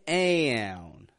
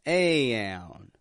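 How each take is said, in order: Both takes have the same delivery.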